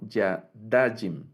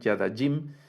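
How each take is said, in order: First: The stress is on the second-to-last syllable. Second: The stress is on the final syllable. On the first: The speaker calls it right. "el acento va en la penúltima sílaba cuando es el dual" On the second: The speaker calls it wrong. "no es Yadajim con el acento hasta el final"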